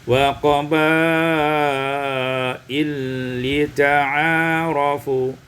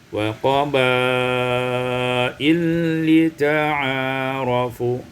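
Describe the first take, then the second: The two takes are said the same way.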